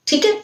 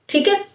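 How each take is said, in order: No difference in how they are said.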